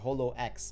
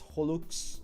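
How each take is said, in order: First: The name ends with the letter X spoken separately. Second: The name ends in a short 'us' sound. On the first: The speaker calls it wrong. "and not Holo X" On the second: The speaker calls it right. "HoloX is pronounced as Holux, similar to Horus"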